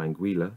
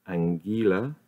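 First: Anguilla said ang-GWIL-uh, with a w after the g; second guess at the word. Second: Anguilla said ang-GOO-luh, no w sound; first guess at the word. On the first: Reading the dictionary aloud, tries the other way of saying it. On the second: Reading the dictionary aloud, tries one way of saying it. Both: Shown as a demonstration. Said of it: "or anguilla, one of the two".

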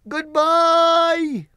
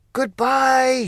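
First: Wizard's farewell. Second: Crowd shout. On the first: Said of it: "called Oz from the basket". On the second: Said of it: "shouted everyone". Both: Acted.

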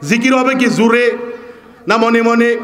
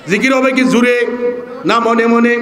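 Both takes have the same delivery.

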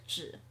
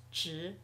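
First: 只 low and dipping, its dictionary tone; third tone. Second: 只 rising, as a second tone. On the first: Teacher naming the word before its change, 只 in third tone. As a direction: keep 只 down low, unchanged. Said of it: "只 is usually third tone". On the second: Teacher showing what the word becomes, 只 in rising second tone. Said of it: "只 becomes second tone". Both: Shown as a demonstration.

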